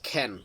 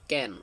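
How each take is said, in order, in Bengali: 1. প্রথম ব্যঞ্জনে জোরালো ফুঁ বাতাস আছে। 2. প্রথম ব্যঞ্জনে কোনো ফুঁ বাতাস নেই। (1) "এখন বলতে হবে" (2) "আগে আমরা বলতাম"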